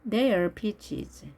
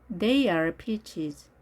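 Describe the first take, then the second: No difference in how they are said.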